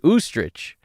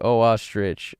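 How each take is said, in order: First: The O merges into one long first vowel. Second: The O is a separate syllable before ostrich. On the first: "It's either that or it's oostrich" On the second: "you read it so funny"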